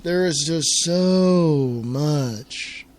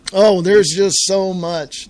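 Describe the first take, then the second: First: Very slow, dragging every word; slow, heavy "There is just so much"; drawn-out weary repeat. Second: Slow sigh of plenty. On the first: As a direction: stretch it out like it's overwhelming. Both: Real, not acted.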